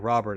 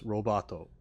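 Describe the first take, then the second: First: The name ends on a bare consonant. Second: The name ends with an added vowel sound.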